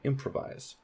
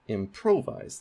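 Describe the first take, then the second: First: The stress is on the first syllable. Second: The stress is on the second syllable. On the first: The speaker calls it right. "So that primary stress is on im" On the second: The speaker calls it wrong. "that is primary stress on pro"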